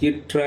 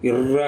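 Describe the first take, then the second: First: The double r is a hard 'tr' sound. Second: The double r is a soft doubled trill. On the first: The speaker calls it right. "இற்றா என்று உச்சரிப்பார்கள்" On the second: The speaker calls it wrong. "இர்ரா என்று உச்சரிக்காமல்"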